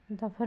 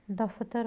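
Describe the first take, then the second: First: दफर with no "t" sound, "da-phar"; misspelling read out. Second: Said in the usual way. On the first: Shown as a demonstration. Teacher showing a misspelling, middle consonant missing. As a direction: drop the "t" in दफर. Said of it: "नहीं होता". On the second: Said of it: "होता है".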